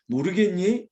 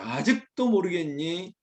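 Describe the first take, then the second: First: Patient question with a light lift; patient explaining. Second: Slow, mildly stern question. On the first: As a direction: ask it as if kindly explaining. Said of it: "하나님께서 자상하게 설명해". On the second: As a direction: draw it out as a grave reproof. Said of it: "엄중하게 말하고 있습니다". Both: Acted.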